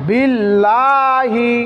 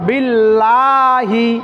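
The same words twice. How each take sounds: First: The word ends with a final 'hi' syllable. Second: The word ends with a final 'hi' syllable.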